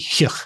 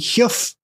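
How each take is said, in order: First: The word ends in a vowel sound. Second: The word ends in an f sound. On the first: "it's also a Scots word where it would be hugh" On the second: "that's the northeastern pronunciation of it"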